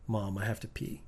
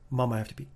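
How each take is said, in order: First: The line is said at a normal pace. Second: The line is said at a fast pace.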